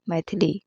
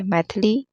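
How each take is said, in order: First: मैथिली said as "maithili"; "mai-thi-li" for मैथिली; correct pronunciation. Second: मैथिली said as "maithli"; wrong pronunciation. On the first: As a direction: sound the middle i in मैथिली. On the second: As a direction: drop the middle i in मैथिली. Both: Shown as a demonstration. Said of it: "होता ही नहीं है".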